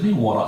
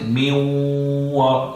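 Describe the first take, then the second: First: The nasal merge is short, as in speech. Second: The nasal merge is held for two counts. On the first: This is how it is said in everyday speech. "the normal speech is min wara" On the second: This is how it is recited in scripture. "in the Quran we say min wara, two counts"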